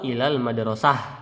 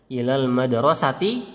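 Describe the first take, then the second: First: The last word ends with a soft h sound. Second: The last word ends with a t sound and vowel. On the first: "Boleh di dibaca ha" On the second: "dia boleh dibaca"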